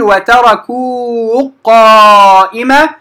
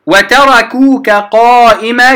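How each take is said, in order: First: وتركوك with the kaf swallowed into قائمة, sounding وتركوا, slow; wrong merged kaf. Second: وتركوك with its final kaf fully said before قائمة, slow; kaf kept clear. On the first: Teacher demonstrating to students the wrong merged وتركوا قائمة. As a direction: drop the kaf of وتركوك into the qaf, slowly. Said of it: "لا أقول ... خطأ". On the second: Teacher showing students the unmerged وتركوك قائمة. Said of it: "امتنع الإدغام". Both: Shown as a demonstration.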